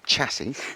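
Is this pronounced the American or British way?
American. It is said in an American way. This is how people elsewhere say it. The speaker calls it wrong. "not chassis"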